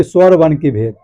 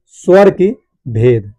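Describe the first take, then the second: First: Said in the usual way. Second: Very slow, words set apart by pauses; slow dictation. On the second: Shown as a demonstration. Teacher dictating key points to students, slow and spaced out. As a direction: spell out the phrase at writing speed.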